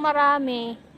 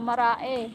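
First: The middle m sound is clearly pronounced. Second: The middle m sound is dropped.

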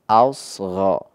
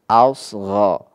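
No difference in how they are said.

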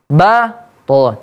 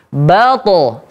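First: The first sound is strong, the second weaker. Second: Both sounds are said with equal strength. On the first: The speaker calls it wrong. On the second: The speaker calls it right. "Sama kuat dia"

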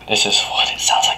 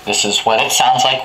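First: The words are whispered very quietly. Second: The words are yelled very loudly. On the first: "this is what it sounds like when I whisper" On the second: "when I'm, I guess, yelling"

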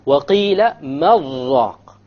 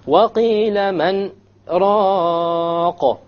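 First: The noon merges into the next word without pause. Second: There is a brief stop after the noon.

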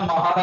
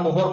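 First: The first vowel is an 'a' sound. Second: The first vowel is an 'o' sound. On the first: "महर और मोहर मत पढ़िएगा" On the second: "महर और मोहर मत पढ़िएगा"

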